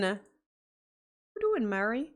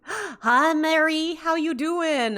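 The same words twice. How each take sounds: First: Said in the usual way. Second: Bright, high, gasping hello; a gasp, then a delighted high hello; excited greeting. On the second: Real, not acted. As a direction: greet her like a long-lost friend. Excited greeting of new viewer.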